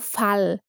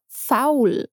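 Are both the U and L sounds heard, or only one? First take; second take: one; both. First: Only one of the U and L sounds is pronounced. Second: Both the U and the L sounds are pronounced. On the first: The speaker calls it wrong. "nós não dizemos apenas fal ou fal" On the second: The speaker calls it right. "ambos os sons de U e L devem ser pronunciados"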